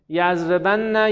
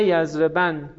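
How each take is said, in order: First: "یضربن" with held double n and final "a": yazrebanna; slow "یضربن", opening out onto -na; heavy emphatic nun. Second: "یضربن" ending on a single closed n: yazreban; light emphatic nun. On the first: Teacher reciting the conjugation, heavy form first, "یضربن" as yazreban-na. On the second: Teacher reciting the light form after the heavy, "یضربن" as yazreban. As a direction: close "یضربن" on the n with a falling tune. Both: Shown as a demonstration. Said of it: "خفیف و ثقیل است".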